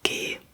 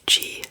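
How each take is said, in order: First: The letter is named with German pronunciation. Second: The letter is named with English pronunciation. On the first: "but we say G" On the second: "in English you say G"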